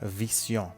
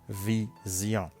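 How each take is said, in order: First: The middle consonant is a hissing S sound. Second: The middle consonant is a buzzing Z sound. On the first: The speaker calls it wrong. "On ne dit pas vision" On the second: The speaker calls it right. "mais ça se prononce comme Z"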